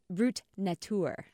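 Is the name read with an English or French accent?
French. It is read with a French pronunciation.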